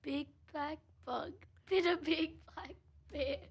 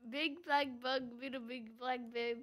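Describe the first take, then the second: First: It is said slowly. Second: It is said fast.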